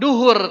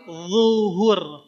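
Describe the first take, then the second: First: The word starts with a plain d sound. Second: The word starts with a thick, heavy z sound. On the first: The speaker calls it wrong. "Bukan duhur" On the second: The speaker calls it right. "tapi zuhur, pakai dho"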